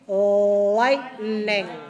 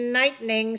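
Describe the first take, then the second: First: The first syllable is oral, not nasalized. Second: The first syllable is nasalized. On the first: The speaker calls it right. "the first one is not nasal" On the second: The speaker calls it wrong. "don't say lightning"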